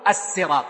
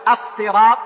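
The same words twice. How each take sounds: First: Dark pharyngealized sad in "الصراط". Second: Light, unemphatic s at the start of "الصراط". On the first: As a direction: say "الصراط" with a heavy, emphatic s. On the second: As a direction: say "الصراط" with a plain s, as "as-sirat". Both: Shown as a demonstration. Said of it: "يعني، بالسين والصاد".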